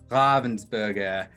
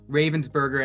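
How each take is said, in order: First: The name is said with non-English pronunciation. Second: The name is said with English pronunciation. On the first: The speaker calls it right. "It's Ravensburger" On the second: The speaker calls it wrong. "as we want to pronounce it in English"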